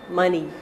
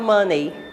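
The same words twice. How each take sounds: First: The last syllable sounds like 'nee'. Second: The last syllable sounds like 'nay'. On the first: The speaker calls it right. "É o ni no final" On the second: The speaker calls it wrong. "muita gente fala money"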